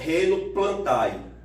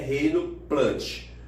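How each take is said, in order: First: The ending is pronounced like 'eye'. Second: The ending is pronounced like 'eh'. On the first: The speaker calls it wrong. "não é reino plantai" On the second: The speaker calls it right. "é reino plante"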